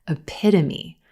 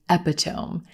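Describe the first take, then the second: First: The stress is on the second syllable. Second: The stress is not on the second syllable. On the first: The speaker calls it right. "our stress is on the second syllable" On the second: The speaker calls it wrong. "put the stress in the wrong place"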